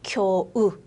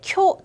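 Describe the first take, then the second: First: The vowel is long. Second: The vowel is short. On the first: The speaker calls it right. "길게 어떻게 읽어요?" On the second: The speaker calls it wrong. "짧게 읽는 게 아니라"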